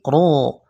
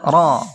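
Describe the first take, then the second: First: The syllable sounds thick and full from the mouth. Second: The syllable sounds thin and light. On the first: The speaker calls it right. "Ro di sini tebal" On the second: The speaker calls it wrong. "Bukan ra"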